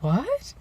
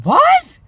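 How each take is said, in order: First: High, rising questioning surprise; puzzled disbelief with a rising end; taken aback. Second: Very high, loud squawk of shock; shocked disbelief. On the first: Babysitter to niece after a threat, taken aback. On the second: Babysitter hearing that Mom always says it, shocked. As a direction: shoot the pitch up in loud astonishment. Babysitter reacts to Mom's saying it. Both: Retold or imitated.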